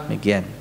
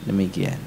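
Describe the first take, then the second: No difference in how they are said.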